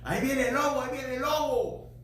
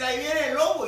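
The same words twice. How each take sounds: First: Put-on boy crying wolf. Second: Louder, higher cry of wolf; boy crying wolf for real this time; mock alarm cry. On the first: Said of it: "aquel niño que decía". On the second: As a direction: call out the warning, a bit louder. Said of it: "volvió a decir".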